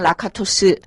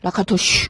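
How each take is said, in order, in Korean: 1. 이름은 평범한 s 소리로 끝나요. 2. 이름은 sh 비슷한 소리로 끝나요. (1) "영어 발음은" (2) "헝가리 오리지널 발음을 하면"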